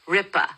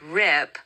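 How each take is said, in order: First: An extra vowel follows the final p sound. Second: The word ends cleanly on the p sound. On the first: The speaker calls it wrong. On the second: The speaker calls it right.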